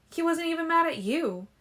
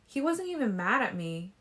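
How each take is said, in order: First: "mad" jumps high and louder; "mad" shoots up in disbelief, falling after; stress on MAD, much higher. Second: "wasn't" lifted, "me" flat; first take, stress on "wasn't". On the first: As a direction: climax take, pitch leaps on "mad". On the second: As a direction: lean on "wasn't", puzzled. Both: A narrator's reading. Bella's stunned repetition.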